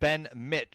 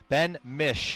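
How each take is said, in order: First: The surname does not sound like Michigan's start. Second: The surname sounds like the start of Michigan. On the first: The speaker calls it wrong. "I'm going to say it wrong again" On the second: The speaker calls it right. "That's how you pronounce that name. Mish as like Michigan"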